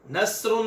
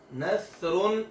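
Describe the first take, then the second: First: Whistled sa; wrong whistled sa. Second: नसरुन with a thin, soft sa and no whistle; Arabic tha, thin and soft. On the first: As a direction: demonstrate the mistake with a hissing s in नसरुन. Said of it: "नसरुन नहीं पढ़ना". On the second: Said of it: "बारीक और नरम होती है". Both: Shown as a demonstration.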